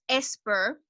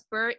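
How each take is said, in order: First: The word starts with an added e vowel. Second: The word starts directly with the s sound. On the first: The speaker calls it wrong. "it's esper" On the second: The speaker calls it right. "spur is not spur"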